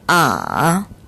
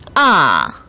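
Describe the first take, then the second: First: The pitch dips very low, then rises slightly. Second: The pitch drops sharply from high to low. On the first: "가장 낮은 음까지 내려갔다가 살짝 올려주는 복잡한 성조 제삼 성" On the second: "높은 음에서 낮은 음으로 뚝 떨어지는 제사성을 발음했습니다"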